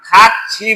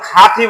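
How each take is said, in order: First: The middle consonant is a ch sound. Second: The middle consonant is a plain t sound. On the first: The speaker calls it right. "খাচ্ছি বলবো" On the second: The speaker calls it wrong. "খাতি বলবো না"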